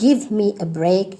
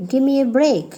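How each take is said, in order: First: Said in the usual way. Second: "Give me" slurred into gimme; shortened form. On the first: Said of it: "instead of telling". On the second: Shown as a demonstration. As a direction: drop the v in "Give me". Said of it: "you can say".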